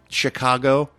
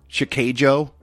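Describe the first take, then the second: First: It is pronounced the usual American way. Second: It is pronounced in a distorted, foreign-sounding way. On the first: The speaker calls it right. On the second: The speaker calls it wrong.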